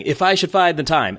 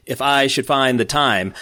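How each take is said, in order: First: Higher, "I", "find" and "time" hit on the second syllable of each foot; sing-song "If I should find the time", stressing "I", "find", "time"; iamb stress. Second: "If I should find the time" read slowly, with "I", "find" and "time" stressed; iamb stress. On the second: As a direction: lean on "I", "find", "time", each second syllable. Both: Shown as a demonstration. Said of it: "the stress is on the second foot".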